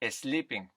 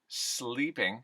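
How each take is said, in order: First: A short eh sound comes before the s. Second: No vowel is added before the s.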